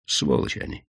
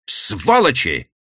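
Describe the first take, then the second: First: Whispered, bitter «Сволочи они!»; hissed curse. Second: «Сволочи!» voiced and drawn out slowly, a mild mock cry; cried out. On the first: Acted. Widow's bitter outburst. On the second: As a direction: call «Сволочи!» aloud, half-hearted outcry. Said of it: "выкрикнула она".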